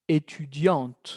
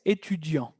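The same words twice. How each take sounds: First: "Étudiante" drawn out, ending on a clear T; final T sounded. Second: "étudiant" ending on the nasal vowel, T silent; silent final T. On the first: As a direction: slowly model "Étudiante" with the T pronounced. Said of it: "Va a cambiar la pronunciación, cuidado". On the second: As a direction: say "étudiant" with no T heard. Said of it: "Porque la T era como petit, muda aquí". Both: Shown as a demonstration.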